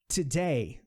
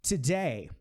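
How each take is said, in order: No difference in how they are said.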